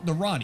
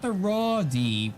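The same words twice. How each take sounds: First: The phrase is said quickly and run together. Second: The phrase is said slowly and separately. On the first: The speaker calls it right. "You got to say it fast enough" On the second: The speaker calls it wrong. "not the Roddy"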